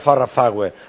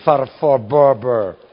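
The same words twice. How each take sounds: First: The name is said with Spanish-style sounds. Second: The name is said with English-style sounds. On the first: This is how the older generation said it. The speaker calls it wrong. "no se dice Farrah Fawcett" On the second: This is how English-speaking children say it. The speaker calls it right. "es Farrah Fawcett"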